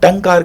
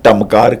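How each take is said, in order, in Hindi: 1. 'k' से पहले का नासिक्य केवल एक नासिक्य स्वर है। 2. 'k' से पहले का नासिक्य 'm' जैसा सुनाई देता है। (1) "टंकार का" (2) "ना मैंने टमकार कहा"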